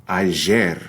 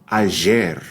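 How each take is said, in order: The two takes are said the same way.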